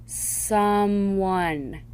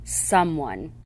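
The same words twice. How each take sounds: First: Someone stretched into two slow syllables; split into syllables. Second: Said in the usual way. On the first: Shown as a demonstration. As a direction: break Someone apart slowly. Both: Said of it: "examples of how the ... should be read".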